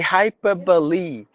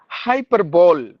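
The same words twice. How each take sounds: First: The final E is pronounced. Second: The final E is silent. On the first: The speaker calls it right. "It should be hyperbole" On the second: The speaker calls it wrong. "That's what we say"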